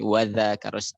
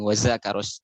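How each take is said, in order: First: The consonant is a soft th-like sound. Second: The consonant is a plain buzzing z sound. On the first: The speaker calls it right. "aslinya za, za. Pakai zal bukan pakai zai" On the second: The speaker calls it wrong. "Orang banyak kadang wadzakaros"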